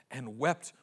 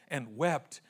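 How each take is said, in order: Both takes have the same delivery.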